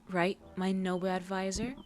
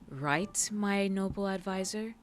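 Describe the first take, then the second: First: It is said in a plain, calm tone. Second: It is said in an aggravated, annoyed tone.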